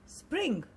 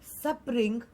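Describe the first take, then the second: First: The opening consonant cluster is said tightly together. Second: The opening consonant cluster is broken up. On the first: The speaker calls it right. "it is spring" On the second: The speaker calls it wrong. "it is not spring"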